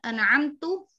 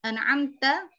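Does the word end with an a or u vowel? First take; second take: u; a. First: The word ends with a u vowel. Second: The word ends with an a vowel. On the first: The speaker calls it wrong. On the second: The speaker calls it right.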